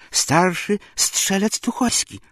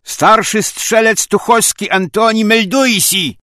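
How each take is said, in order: First: Slow, high, halting report; scared soldier answering haltingly; choked, frightened reply. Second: Loud, high military report; crisp parade-ground bellow; soldierly shout. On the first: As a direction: get the words out through a tight throat. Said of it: "słowa z gardła zatkanego wydostać nie potrafił". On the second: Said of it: "po żołniersku wykrzyknął". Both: Acted.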